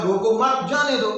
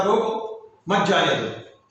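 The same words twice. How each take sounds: First: रोको मत joined, then जाने दो apart; group रोको with मत, break before जाने दो; pause after मत. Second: रोको alone, pause, then मत जाने दो together; pause after रोको. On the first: Constable quotes the order to officer, pause after मत. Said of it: "तो मैंने रोका नहीं जाने दिया". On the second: Officer orders the car stopped, pause after रोको. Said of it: "ऑफिसर ने कहा कि गाड़ी जा रही है". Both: Shown as a demonstration.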